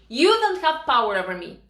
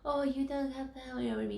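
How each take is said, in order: First: It is said strongly and confidently. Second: It is said weakly and timidly.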